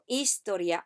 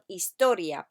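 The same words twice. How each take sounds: First: The stress is not on the middle o. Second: The stress is on the middle o. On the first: The speaker calls it wrong. "I don't want historia" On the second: The speaker calls it right. "Put the emphasis on the O in the middle"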